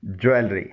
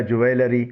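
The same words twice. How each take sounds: First: ज्वेलरी said as "JOO-el-ree"; careful ज्वेलरी, no vowel between l and r; correct pronunciation. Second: ज्वेलरी said as "joo-AY-luh-ree"; wrong-way ज्वेलरी, extra vowel before "ree"; common mispronunciation. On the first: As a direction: say ज्वेलरी with l straight into r. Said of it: "इसका सही pronunciation है". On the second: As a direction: say ज्वेलरी in four syllables. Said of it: "कई तरीक़ों से गलत बोला जाता है". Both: Shown as a demonstration.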